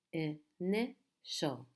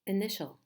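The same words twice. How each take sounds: First: "initial" slowly split as i, ni, tial; syllable by syllable. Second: Said in the usual way. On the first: Shown as a demonstration. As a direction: sound out "initial" in three separate beats. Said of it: "How many syllables in this word?". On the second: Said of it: "So again, we have".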